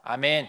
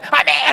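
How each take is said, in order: First: The amen is said very quietly and weakly. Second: The amen is said loudly and strongly.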